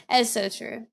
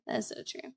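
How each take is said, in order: First: Said in the usual way. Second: A soft whispered echo of the words. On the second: Real, not acted. Streamer agreeing again with a comment from chat, whispered. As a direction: whisper it back as an aside.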